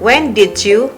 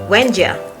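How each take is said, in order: First: Each word of 'did you' is said in full. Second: 'Did you' is reduced to a single 'ja' sound.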